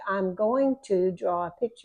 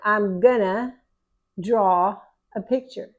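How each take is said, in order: First: 'Going to' is said in full. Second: 'Going to' is reduced to 'gonna'. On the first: This is how it would be written. "If I were going to write it down" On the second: This is how it is said in speech. "I went ahead and switched to gonna"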